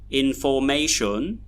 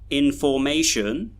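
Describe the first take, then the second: First: The unstressed syllables have full vowels. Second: The unstressed syllables have full vowels.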